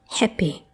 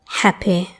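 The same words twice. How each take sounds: First: The first vowel is closer, tenser, less open. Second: The first vowel is fully open.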